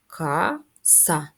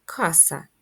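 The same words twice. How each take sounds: First: "Каса" slowly in two separate syllables; split into syllables. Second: Said in the usual way. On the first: Shown as a demonstration. Teacher counting syllables for children, "Каса" slowly split. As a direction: draw out "Каса" as ка, then са. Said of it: "має два склади". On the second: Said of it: "Наступне слово у нас".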